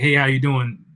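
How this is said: It sounds quick and offhand.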